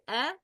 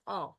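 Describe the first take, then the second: First: "a" thin and fronted, as in "cat"; light hamza. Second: "a" dark and backed, like "aw"; heavy hamza. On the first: Teacher showing the correct hamza, light thin "a". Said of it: "it's a, not a". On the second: Teacher showing the mistaken hamza, heavy dark "a". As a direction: say a heavy, full-mouthed back "a". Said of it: "not a". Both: Shown as a demonstration.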